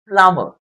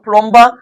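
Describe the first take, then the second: First: No B sound is pronounced after the M. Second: A B sound is pronounced after the M. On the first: The speaker calls it right. "The B in the spelling when pronouncing the word is silent" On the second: The speaker calls it wrong. "So not plumber"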